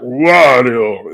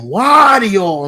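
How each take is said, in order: First: It is said in a deep, gruff voice. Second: It is said in a hammy cartoon-villain voice. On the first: This is how the character sounds now. "he's all deep voice and stuff" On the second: This is how the character sounded originally. "just like your stereotypical Saturday morning cartoon villain"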